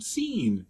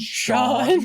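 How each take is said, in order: First: The name is said to rhyme with 'seen'. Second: The name is said to rhyme with 'dawn'. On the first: The speaker calls it wrong. "I've never been able to be proud about my pronunciation" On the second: The speaker calls it right. "do you mean Sean?"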